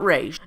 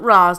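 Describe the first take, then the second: First: The name is said with an 'ay' vowel. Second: The name is said with an 'ah' vowel. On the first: This is a pronunciation the speaker rejects. The speaker calls it wrong. "not Rage" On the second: This is the speaker's own pronunciation. The speaker calls it right. "I pronounce it Ra's"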